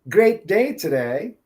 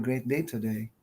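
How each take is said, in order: First: It is said with lively, high energy. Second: It is said quietly with little energy. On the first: The speaker calls it right. "more energy when you're talking" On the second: The speaker calls it wrong. "Instead of saying"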